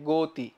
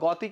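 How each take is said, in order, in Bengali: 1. প্রথম স্বরটি সংবৃত ও ধ্বনি। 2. প্রথম স্বরটি বিবৃত ও ধ্বনি। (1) "গো ও হয়ে যায় গতি" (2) "গ অ অ উচ্চারণ করে এখানে গতি বলো কখনো"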